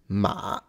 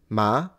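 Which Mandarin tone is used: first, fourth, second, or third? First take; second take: third; second. First: The pitch dips low, then rises again. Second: The pitch rises from middle to high.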